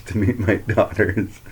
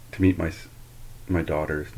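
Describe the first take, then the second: First: "to meet my daughters" said slower, "daughters" leaned on as the fix; slow down and land firmly on "daughters" after the slip; self-correction, "daughters" stressed and drawn out; corrective stress on "daughters". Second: Said in the usual way. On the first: Real, not acted.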